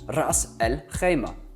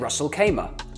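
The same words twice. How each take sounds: First: It is said with Arabic-style sounds. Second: It is said with English-style sounds. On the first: The speaker calls it right. "how it's correctly spoken" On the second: The speaker calls it wrong. "Most people say"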